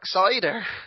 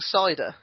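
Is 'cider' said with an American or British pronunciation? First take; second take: American; British. First: It is said with an American pronunciation. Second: It is said with a plain British pronunciation.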